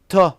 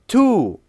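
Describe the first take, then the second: First: The word has a reduced schwa vowel. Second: The word has a full, clear vowel. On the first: "t is a weak form" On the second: "To is a strong form"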